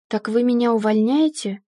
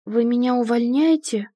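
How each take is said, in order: First: Mildly bewildered question; a touch of confused insistence. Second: A touch of alarmed questioning; mildly upset, anxious question; upset, frightened. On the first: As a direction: ask again, utterly lost but understated. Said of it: "Я уже вообще ничего не понимала". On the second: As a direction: ask it with understated dread. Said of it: "расстроена и испуганно спросила". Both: A narrator's reading.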